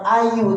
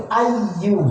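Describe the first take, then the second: First: "ayu" with a single light y; wrong ayu. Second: "ayyu" with a doubled, held y; correct ayyu. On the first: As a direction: say "ayu" with no doubled y. ("ayu" tanpa tasydid pada ya) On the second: ("ayyu" dengan tasydid pada ya) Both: Shown as a demonstration. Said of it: "bukan ayu tapi ayyu".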